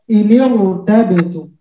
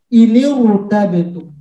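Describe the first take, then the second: No difference in how they are said.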